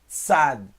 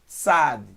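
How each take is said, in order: First: It begins with a voiceless TS sound. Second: The same.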